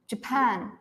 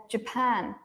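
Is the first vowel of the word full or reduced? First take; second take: reduced; reduced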